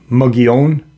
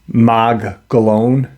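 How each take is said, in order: First: The name is said the native, original way. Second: The name is said the Anglicized, outsider way. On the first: This is how the name is really pronounced. The speaker calls it right. "it's actually pronounced um" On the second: This is how outsiders pronounce the name. The speaker calls it wrong. "but the Caucasian pronounce it"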